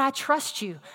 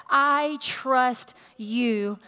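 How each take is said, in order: First: Said in the usual way. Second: Drawn out word by word; deliberate, half-speed declaration of trust; slow, deliberate. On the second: Acted. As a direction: declare it very slowly, weighing each word.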